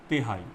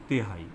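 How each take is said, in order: Both takes have the same delivery.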